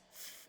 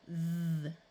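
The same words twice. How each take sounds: First: The th sound is made without voice. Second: The th sound is made with voice. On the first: "it's called the unvoiced sound" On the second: "the second one is the one we use here"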